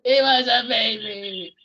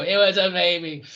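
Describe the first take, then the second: First: Slow hammed-up crying wail; mock sob. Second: Said in the usual way. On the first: Host re-quotes Hawkeye's breakdown line, mock crying. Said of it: "repeating the Alan Alda line". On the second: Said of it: "I just go".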